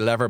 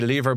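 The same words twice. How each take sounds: First: The name is said with an American pronunciation. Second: The name is said with a non-American pronunciation. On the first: "The Americans would say Lever" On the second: "I'd say Lever"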